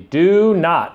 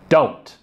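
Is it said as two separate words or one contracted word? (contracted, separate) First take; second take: separate; contracted. First: Two full words are said apart. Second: One short contracted syllable is said. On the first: "we have the do and the not. And they get squished together slowly" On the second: "we're left with the contraction don't"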